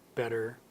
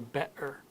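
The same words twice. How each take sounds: First: The middle T is a quick D-like flap. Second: The middle T is a glottal stop. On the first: "We turn it into almost a D sound" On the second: "a Cockney would sound like"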